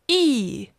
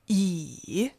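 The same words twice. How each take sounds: First: The pitch falls sharply from high. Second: The pitch dips low, then rises.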